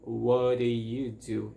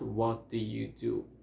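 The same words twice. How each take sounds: First: The T in 'what' is a quick flap. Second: The T in 'what' is a clear T. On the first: The speaker calls it right. "it sounds like" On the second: The speaker calls it wrong. "It's not"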